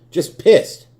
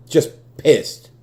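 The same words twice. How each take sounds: First: Higher, louder, near-shouted pissed; angry shout. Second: Loud, angry statement; pissed off. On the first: Fan repeating his anger, higher angry shout. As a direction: explode on the repeat. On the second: Fan admitting his anger, loud and fed up. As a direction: say it like you're fed up. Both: Real, not acted.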